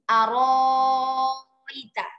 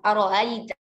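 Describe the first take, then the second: First: The hamza becomes a long vowel held six counts. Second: The hamza is softened between hamza and vowel. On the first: "dengan panjang enam harokat di situ" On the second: "Imam Qalun kan membacanya dengan tashil"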